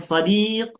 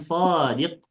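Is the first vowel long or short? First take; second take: short; long. First: The first vowel is short. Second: The first vowel is long. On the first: It means friend. "Ini sadiq" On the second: It means an honest person. "sodnya yang dipanjangkan artinya bukan teman lagi"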